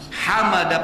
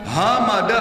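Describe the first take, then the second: First: The h is a strong breathy sound from the chest. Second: The h is a plain light h sound. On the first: It means praise. The speaker calls it right. "pakai ha artinya segala puji" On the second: It means death. The speaker calls it wrong. "artinya kematian"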